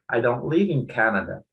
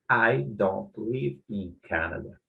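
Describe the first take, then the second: First: Only the key word carries stress. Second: Every word carries equal stress. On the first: The speaker calls it right. "ele vai colocar apenas a ênfase na palavra correta" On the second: The speaker calls it wrong. "ele vai tentar colocar a ênfase em todas as palavras da frase"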